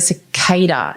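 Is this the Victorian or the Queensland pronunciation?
Victorian. It is said the Victorian way.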